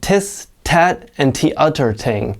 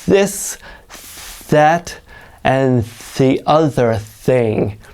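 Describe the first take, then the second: First: The th sounds are said as a t. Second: The th sounds are exaggerated, tongue out. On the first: The speaker calls it wrong. "they'll pronounce it like tis, tat, and t'other ting" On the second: The speaker calls it right. "start by really over exaggerating it. Stick your tongue way out"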